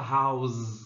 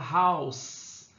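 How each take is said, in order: First: The word ends with a buzzing Z sound. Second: The word ends with a hissing S sound. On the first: The speaker calls it wrong. "A gente não fala house com som de Z" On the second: The speaker calls it right. "a gente fala house"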